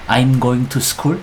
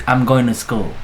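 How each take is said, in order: First: "I'm going to school" with every word said apart and slowly. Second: "I'm going to school" run together as "am goin u school"; linked speech. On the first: Teacher showing students the stiff textbook reading. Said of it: "bukan I'm going to school". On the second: Teacher showing students how native speakers link words. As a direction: blend "going to" into one smooth flow. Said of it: "tapi I'm going to school". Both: Shown as a demonstration.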